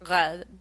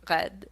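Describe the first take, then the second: First: The R sounds tight and pulled back in the mouth. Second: The R sounds tight and pulled back in the mouth.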